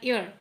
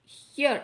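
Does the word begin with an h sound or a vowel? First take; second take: vowel; h sound. First: The word begins directly with a vowel. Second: The word begins with an h sound. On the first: The speaker calls it right. "ईयर pronounce करना है" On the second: The speaker calls it wrong. "हियर नहीं"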